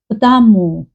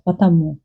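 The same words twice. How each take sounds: First: The middle 'a' sound is stressed as well. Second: The stress falls only on the last syllable. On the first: The speaker is probably from Moscow. "sounds like uh, stress on "а", or like two stress, "а" and "у"" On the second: This is the standard pronunciation. "stress in the end"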